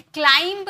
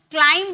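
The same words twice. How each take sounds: First: "क्लाइंब" with the final b released; sounded B. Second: "क्लाइंब" ending on m, no b; silent B. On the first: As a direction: wrongly add a b ending to "क्लाइंब". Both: Shown as a demonstration. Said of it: "क्लाइंब नहीं बोलते".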